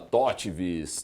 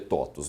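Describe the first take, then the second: First: The V is sounded as a V consonant. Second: The V is sounded as a U vowel. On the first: The speaker does not know the Latin origin. The speaker calls it wrong. "Quem não conhece necessariamente eh, latim ou não sabe a história da TOTVS, eventualmente fala TOTVS" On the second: It follows the Latin pronunciation. The speaker calls it right. "como se pronuncia é, TOTVS"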